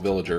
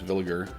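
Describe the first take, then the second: First: The name sounds like the English word villager. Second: The name does not sound like villager. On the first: This is how other people mistakenly say it. The speaker calls it wrong. "I've heard people call them Villager, and it's not that" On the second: This is the company's actual name. The speaker calls it right. "It's Villiger"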